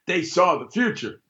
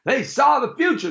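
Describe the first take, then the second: First: Said in the usual way. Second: Higher, punchier second take; emphatic repeat. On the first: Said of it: "repeated louder". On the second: Shown as a demonstration. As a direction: land it harder the second time. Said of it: "repeated line".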